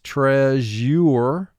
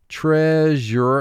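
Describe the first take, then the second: First: It is said with each written sound made distinct. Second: It is said naturally, as in everyday speech.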